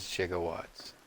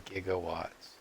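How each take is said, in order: First: "gigawatts" with a soft G, like jigawatts. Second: "gigawatts" with a hard G. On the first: Showing the way nobody says it, soft-G "gigawatts". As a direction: start "gigawatts" with a J sound. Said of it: "but nobody says gigawatts". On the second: Showing how people say it, hard-G "gigawatts". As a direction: start "gigawatts" with the G of "give". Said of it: "people say gigawatts". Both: Shown as a demonstration.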